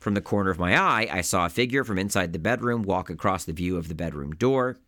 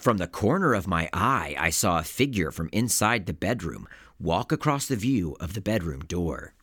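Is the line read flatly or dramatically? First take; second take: flatly; dramatically. First: It is read flatly, like a minor detail. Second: It is read dramatically, like a key event.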